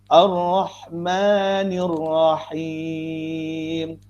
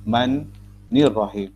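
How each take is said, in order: First: The n sound is said once, smoothly linked. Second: An extra n sound is added, doubling it. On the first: The speaker calls it right. "Ini yang betul" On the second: The speaker calls it wrong. "Tambah huruf nun lagi satu"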